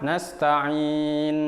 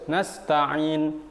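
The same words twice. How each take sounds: First: The 'ain sound is held too long. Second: The 'ain sound is cut off abruptly. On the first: "tidak boleh juga langsung lama" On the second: "langsung putus tidak boleh"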